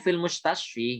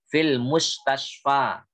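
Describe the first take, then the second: First: The final vowel is a close 'i' sound. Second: The final vowel is an open 'a' sound. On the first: The speaker calls it wrong. "Nggak boleh fil mustasfi, nggak boleh" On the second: The speaker calls it right. "Seperti itulah dia"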